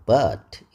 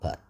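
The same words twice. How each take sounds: First: The word is said strongly with a full vowel. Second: The word is said weakly with a reduced vowel. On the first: The word is emphasized. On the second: The word is not emphasized.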